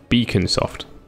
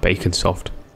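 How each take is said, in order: First: The first part sounds like the word beacon. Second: The first part sounds like the word bacon. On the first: The speaker calls it right. "Pronounced Beaconsoft" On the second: The speaker calls it wrong. "not Baconsoft"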